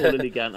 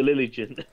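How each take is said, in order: First: Lilligant said "LILLY-gant", with a hard g; hard-g pronunciation. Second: Lilligant said "LILLY-jin", with a soft g; soft-g pronunciation. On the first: Streamer offering another way to say it, Lilligant with a hard g. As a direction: say the g in Lilligant as in "gap". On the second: Unsure streamer reading chat attempts the name, Lilligant with a soft g. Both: Real, not acted. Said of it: "however you bloody pronounce".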